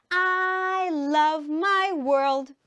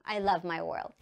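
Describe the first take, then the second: First: Higher, slow sustained chant; sung, drawn-out singsong; sung model sentence. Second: Said in the usual way. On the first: Shown as a demonstration. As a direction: sing it out, holding every word. Teacher chants with pupils.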